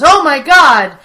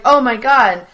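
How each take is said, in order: First: Loud, overacted fake shock; worst acting ever. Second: Lightly imitated stiff, flat-hearted surprise; wooden acting. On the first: Friend retelling Jim's terrible fake surprise, hammed-up shout. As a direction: ham up a startled gasp badly. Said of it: "in the worst acting". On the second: Friend re-imitating Jim's wooden line, mild mock. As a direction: say it like a bad actor reading cold. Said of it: "it's more that wooden Jim acting".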